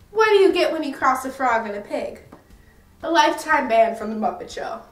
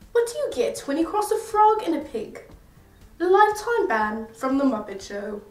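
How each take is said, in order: First: It is said in the speaker's normal accent. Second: It is said in a put-on British accent.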